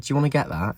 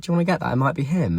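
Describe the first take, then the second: First: Said in the usual way. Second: High, pointed mock-innocent offer; high sassy dig at a cheating boyfriend; sassy retelling. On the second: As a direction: needle him with a sweet jab. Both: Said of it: "Did feel quite sassy".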